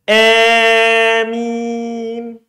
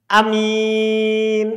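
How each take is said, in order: First: The first vowel lies between a and i. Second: The first vowel is short; the m is light. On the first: "bukan a, bukan i, tapi gabungan di tengah" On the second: "Pendek hamzanya. Diringankan minnya"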